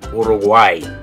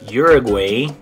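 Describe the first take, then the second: First: It is pronounced with Spanish sounds. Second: It is pronounced with English sounds. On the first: "but in Spanish you're going to say" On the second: "in English we would say this one"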